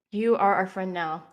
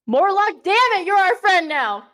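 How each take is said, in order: First: Said in the usual way. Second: Loud, higher-pitched insistence; mock-stern loud declaration; emphatic shout. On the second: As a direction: raise the voice and declare it forcefully. Repeats it echoing Mortlock's shouted demand.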